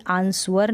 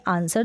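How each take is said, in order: First: आंसवर as "aans-var"; wrong sounded-W reading. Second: आंसर as "aan-sar", W dropped; silent-W pronunciation. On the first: Teacher shows learners what never to read, W-sounding आंसवर. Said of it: "कभी भी आंसवर नहीं पढ़ेंगे". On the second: Teacher tells learners how we read it, silent-W आंसर. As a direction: say आंसर with no V or W sound. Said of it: "हम पढ़ेंगे आंसर". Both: Shown as a demonstration.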